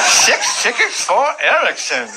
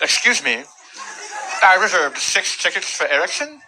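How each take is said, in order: First: Slow, high cleft-palate clerk imitation; imitated impediment, repeating slowly and much higher; cleft palate speech. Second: Imitated cleft-palate customer, higher voice; polite customer with imitated speech impediment. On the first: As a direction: draw out the order with slurred s sounds. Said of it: "he has a cleft palate". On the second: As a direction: slur the s sounds as if with a cleft palate. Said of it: "A woman that also had a cleft palate".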